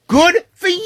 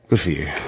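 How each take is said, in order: First: It sounds wildly thrilled and ecstatic. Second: It sounds let down and disappointed.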